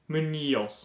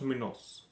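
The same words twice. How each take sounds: First: The middle consonant is a ny sound. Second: The middle consonant is a plain n. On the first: The speaker calls it right. "I believe that is like Munoz" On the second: The speaker calls it wrong. "not Munoz"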